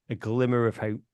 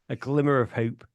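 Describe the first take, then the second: No difference in how they are said.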